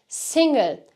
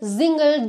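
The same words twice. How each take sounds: First: The word begins with a hissing S sound. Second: The word begins with a buzzing Z sound. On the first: The speaker calls it right. "doğru telaffuzu S şeklinde" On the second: The speaker calls it wrong. "burada single demiyoruz"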